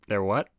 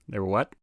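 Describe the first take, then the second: The two takes are said the same way.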